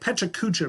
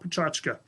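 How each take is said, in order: First: Every syllable is said in full. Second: The word is said in a shortened form. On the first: It is read the way it looks. The speaker calls it wrong. "it looks like Pechakucha" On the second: It is close to the original Japanese word. The speaker calls it right. "Pachachka is the closest way to pronounce it to English"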